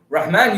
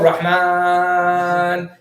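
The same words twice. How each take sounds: First: The long vowel is held briefly. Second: The long vowel is stretched out far.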